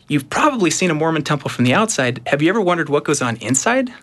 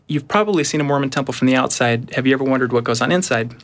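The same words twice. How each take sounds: First: It is said in a bubbly, dramatic way. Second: It is said in a flat, plain way.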